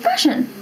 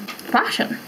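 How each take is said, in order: First: Fashion squeaked very high, falling; squeaky fashion. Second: Whispered fashion. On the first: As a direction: pitch Fashion way up as a punchline. One-word punchline answer. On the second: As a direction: breathe FASHION as a soft aside. One-word deadpan answer. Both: Pretend.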